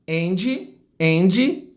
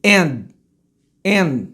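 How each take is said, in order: First: "And" as "andgy", with an i; wrong pronunciation. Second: "And" with the d not coming out; correct unreleased d. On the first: Teacher showing the wrong way, "And" with added vowel. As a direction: release "And" into a final "jee". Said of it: "olha o errado". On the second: Teacher showing the right way, "And" with silent d. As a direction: hold back the d of "And". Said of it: "Repare que o D, ele não sai". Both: Shown as a demonstration.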